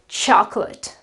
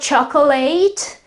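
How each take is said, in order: First: The ending is a weak unstressed 'ut' sound. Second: The ending is a full 'eight' sound. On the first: The speaker calls it right. "The right pronunci pronunciation is" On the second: The speaker calls it wrong. "that's not chocolate, as someone, or quite a few people pronounce it. Uh, this is wrong"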